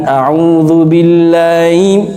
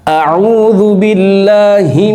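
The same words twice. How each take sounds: First: The h sound in billahi is weak or dropped. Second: The h sound in billahi is clearly pronounced. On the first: The speaker calls it wrong. "bukan a'udzu billahi imina" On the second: The speaker calls it right. "haknya itu juga harus jelas"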